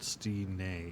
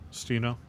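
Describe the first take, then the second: First: The name ends in a 'nay' sound. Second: The name does not end in a 'nay' sound. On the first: The speaker calls it wrong. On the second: The speaker calls it right.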